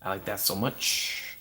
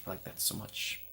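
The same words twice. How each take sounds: First: Said in the usual way. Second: Soft breathy murmur; hushed whispered delight. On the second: Real, not acted. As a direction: whisper it fondly.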